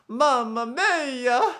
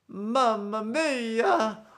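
First: It is said in a very exaggerated cartoon voice. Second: It is said in a very exaggerated cartoon voice.

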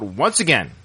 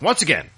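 First: The words are read in a plain, level voice. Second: The voice goes up, louder and higher. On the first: The words are written in normal letters. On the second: The words are written in all capital letters.

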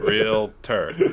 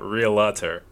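First: No vowel is heard between the L and T. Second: An extra vowel is heard between the L and T. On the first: The speaker calls it right. "it's just L and T" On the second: The speaker calls it wrong. "not realtor"

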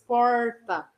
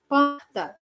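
First: The R is curled back, like English R. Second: The R is a raspy, breathy sound in the throat. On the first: The speaker is from inland São Paulo. "Falar aquele R caipira que parece o R do inglês" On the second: The speaker is from Rio. "o R mais carinho, mais arranhado ... que coloca mais ar no R"

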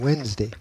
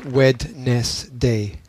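First: The D is silent, with two syllables. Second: The D and every syllable are sounded out. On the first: It is the normal everyday pronunciation. "you don't pronounce the D, you just say Wednesday" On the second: It is said as spelled to remember the spelling. "which I had to remember as Wednesday"

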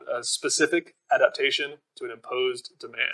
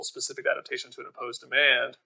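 First: It is said at a slow pace. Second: It is said at a quick pace.

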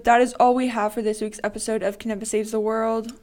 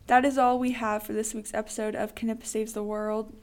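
First: It is said with lively energy. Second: It is said with little energy.

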